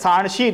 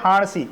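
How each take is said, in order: First: The word begins with an s sound. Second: The word begins with an h sound. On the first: This is the standard pronunciation. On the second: This is the Charotari dialect pronunciation.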